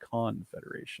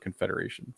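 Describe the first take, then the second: First: The first syllable 'con' is stressed. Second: The first syllable 'con' is unstressed. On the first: "some people actually pronounce it like that" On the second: "instead of"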